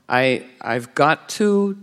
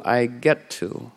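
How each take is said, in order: First: Slow weighed-down "I've got to"; heavy got to. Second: Soft, slow "I get to" as a gift; light get to. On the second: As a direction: say "I get to" gently, freed. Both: Shown as a demonstration. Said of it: "switch the O and the E".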